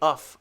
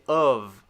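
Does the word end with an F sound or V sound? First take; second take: F sound; V sound. First: The word ends with a voiceless F sound. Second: The word ends with a voiced V sound. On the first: The speaker calls it wrong. "So I don't say of" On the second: The speaker calls it right. "I say of. It's almost like O V E"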